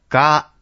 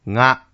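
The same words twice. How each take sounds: First: The consonant is a plain voiced g stop. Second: The consonant is a nasal ng sound. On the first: "これが濁音です" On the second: "これが微濁音です"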